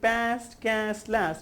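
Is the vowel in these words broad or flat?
flat. The words use a short, flat a vowel. The speaker calls it wrong. "Instead of saying"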